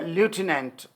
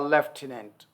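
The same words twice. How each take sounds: First: It is said in an American accent. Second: It is said in a British accent.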